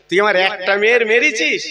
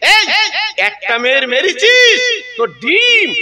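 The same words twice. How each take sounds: First: Said in the usual way. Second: Higher and louder, slowed, মেরেছিস hammered; louder, slower accusation. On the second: Retold or imitated. Preacher voicing an angry father-in-law threatening the son-in-law, raised slow accusation.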